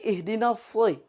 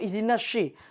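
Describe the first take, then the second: First: The s is heavy and thick. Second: The s sounds like sh. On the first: The speaker calls it right. "tapi ihdinas soi" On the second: The speaker calls it wrong. "atau ihdinas syi"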